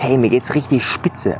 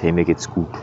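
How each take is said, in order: First: Slow, emphatic, savouring "richtig spitze"; enthusiastic answer. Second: Said in the usual way. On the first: Shown as a demonstration. Coach demonstrating a strong answer to "how are you", emphatic. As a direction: sell how great you feel. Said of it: "dann hat das eine ganz andere Intensität". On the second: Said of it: "als wenn du sagst".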